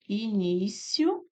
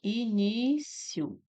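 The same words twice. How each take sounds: First: "início" spelled out slowly as i-ní-cio, last vowels kept together; "início" said slowly syllable by syllable, ending in a diphthong; syllabified slowly. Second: "início" split slowly as i-ní-ci-o, every vowel its own syllable; "início" said slowly with the final vowels apart; syllabified slowly. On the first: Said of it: "Essas palavras aqui eu posso separar de duas formas". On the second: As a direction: break "início" into four slow syllables. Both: Shown as a demonstration.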